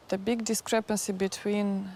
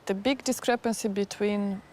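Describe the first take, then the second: No difference in how they are said.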